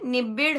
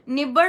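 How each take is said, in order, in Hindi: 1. बीच के अक्षर में छोटी 'i' ध्वनि है। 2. बीच के अक्षर में छोटी 'a' ध्वनि है। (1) "निबिड़ है" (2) "निबड़ नहीं है"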